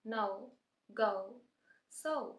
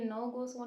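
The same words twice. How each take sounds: First: No, go, so gliding o to u; no go so with the ou glide; diphthong ou. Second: No, go, so with a flat single o; no go so, wrongly flat; wrong plain o. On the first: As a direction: say no, go, so like a native speaker. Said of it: "native speakers भी ऐसे बोलते हैं". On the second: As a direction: say no, go, so as pure o. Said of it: "नहीं बोलना हमने". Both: Shown as a demonstration.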